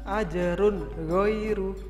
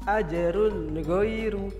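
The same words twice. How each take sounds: No difference in how they are said.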